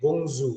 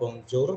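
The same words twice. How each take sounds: First: The J sounds like a Z sound. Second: The J sounds like an English J. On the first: The speaker calls it right. "tapi bonjour. Seperti ini J-nya itu seperti mengucapkan huruf Z" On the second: The speaker calls it wrong. "jadi bukan bacanya bonjour"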